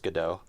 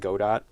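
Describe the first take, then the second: First: The name uses the French pronunciation. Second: The name uses the developers' own pronunciation. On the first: The speaker calls it right. "in French it's pronounced Godot" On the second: The speaker calls it wrong. "the developers call it Godot"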